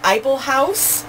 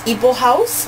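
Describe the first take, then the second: First: The name begins with an 'eye' sound. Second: The name begins with an 'ee' sound. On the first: This is how the speaker has been saying it. The speaker calls it wrong. "I I've been calling it Eiffel House" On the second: This is how the other person says it. The speaker calls it right. "She says it's Eeple House, which makes sense because that's how it sounds"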